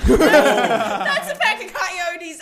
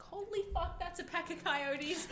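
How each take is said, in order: First: High, loud, drawn-out mock panic; retold loud shock. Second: High, hushed disbelief; retold shock. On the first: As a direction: belt out the stunned discovery, comically stretched. Repeats coyote shock, louder. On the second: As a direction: re-enact a stunned realisation, high-pitched and held back. Retelling shock at seeing coyotes.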